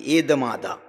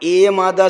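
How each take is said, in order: First: एदमादा said with a clear soft d in the middle, e-da-ma-da; Shauraseni pronunciation. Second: एयमादा said with a y glide in place of the d, e-ya-ma-da; Maharashtri pronunciation. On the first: Teacher shows the Shauraseni form एदमादा with a dental d. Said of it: "ये द से बोलो तो ये शौर सेनी प्राकृत". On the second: Teacher shows the Maharashtri form एयमादा with a y glide. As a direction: say एयमादा with a y, no d sound. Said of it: "एयमादा से कहो तो ये Maharashtri Prakrit". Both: Shown as a demonstration.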